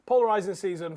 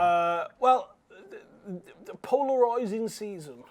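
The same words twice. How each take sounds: First: Said in the usual way. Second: Drawn-out put-on accent, POLARISING broadened. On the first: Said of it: "why I had the accent". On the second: Real, not acted. Co-host introducing the polarising season, in a put-on accent. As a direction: say polarising in an accidental accent, its RIS like "roys".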